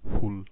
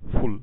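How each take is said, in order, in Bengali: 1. শব্দটি চিহ্নিত সুর ছাড়া বলা হয়েছে। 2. শব্দটি চিহ্নিত সুরে বলা হয়েছে। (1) "এফ ইউ এল ফুল" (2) "এফ ইউ গুতা এল ফুল"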